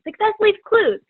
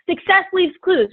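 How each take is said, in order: First: Slogan repeated higher, stress on leaves; mildly mocking the familiar slogan. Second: Slogan said a bit higher, quoting coaches; mild quoting tone; quoted slogan. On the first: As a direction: echo the catchphrase with a lift on leaves. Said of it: "We hear that all the time". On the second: Retold or imitated. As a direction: quote the coaches' catchphrase lightly. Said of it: "because they told me".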